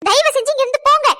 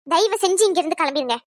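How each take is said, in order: First: Loud, high-pitched outburst; furious shout. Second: Said in the usual way. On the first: Acted. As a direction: throw them out at the top of your voice. Final order to leave.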